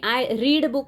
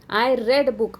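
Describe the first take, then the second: First: The vowel in read is a long ee. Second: The vowel in read is a short e. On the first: The reading happens habitually in the present. "मी पुस्तक वाचते असं simple प्रेझेंटचं वाक्य होईल" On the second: The reading happened in the past. "Simple past टेन्सचं वाक्य होईल, कारण आपण त्याचा उच्चार रेड असा केलेला आहे"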